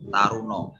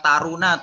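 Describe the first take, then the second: First: The word ends with an 'o' sound. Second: The word ends with an 'a' sound. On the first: "dalam bahasa Jawa dibacanya taruno" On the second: "taruna tulisannya"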